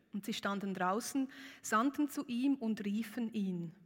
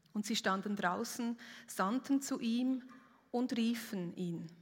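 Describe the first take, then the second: The two takes are said the same way.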